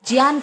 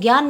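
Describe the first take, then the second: First: The word begins with a j sound. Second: The word begins with a g sound. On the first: The speaker calls it right. "ज्ञान कहना चाहिए" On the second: The speaker calls it wrong. "ज्ञान ना कहकर"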